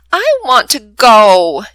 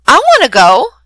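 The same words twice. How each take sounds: First: Slow, louder sulky whine; pouty plea to be allowed along; pouting. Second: Bright, louder eager plea; excited child begging to come along. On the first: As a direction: drag it out like a sulking child. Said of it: "Jimmy pouts". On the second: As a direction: jump in wanting to go too. Eager child hears of trip. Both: Acted.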